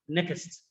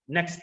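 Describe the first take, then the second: First: The word is split into two syllables. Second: The word is said as one syllable. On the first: The speaker calls it wrong. "they can have it as two syllables, like next" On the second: The speaker calls it right. "this word is only one syllable"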